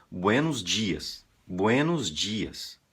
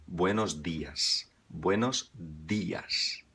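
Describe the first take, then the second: First: Slow "buenos dias" with Brazilian dj; mock a Brazilian saying "dias" as "djias"; Brazilian accent. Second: Slow "Buenos días" with hard d; Spanish greeting. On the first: Teacher imitating a Brazilian getting it wrong. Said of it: "tem brasileiro que diz". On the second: Shown as a demonstration. Teacher modelling the Spanish morning greeting slowly. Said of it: "fazem sempre no plural".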